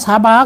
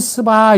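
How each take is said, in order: First: The first vowel is an open 'a' sound. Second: The first vowel is a short 'eu' sound. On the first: This follows the Chinese-character reading. "근데 우린 그냥 사바 그냥 읽었어" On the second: This is the original reading of the term. "원래 읽을 때는 스바 이렇게 읽어야 된단 말이야"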